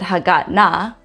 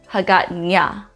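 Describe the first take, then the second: First: The middle consonant is a plain n sound. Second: The middle consonant is a palatal ny sound. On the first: The speaker calls it wrong. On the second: The speaker calls it right.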